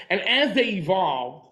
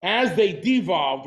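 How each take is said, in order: First: Said in the usual way. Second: "devolved" slowed and leaned on as the correction; "devolved" said slowly with weight on the "de"; stress on devolved. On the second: Shown as a demonstration.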